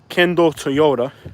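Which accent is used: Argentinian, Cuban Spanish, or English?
English. It is said with an English accent. "So English would be"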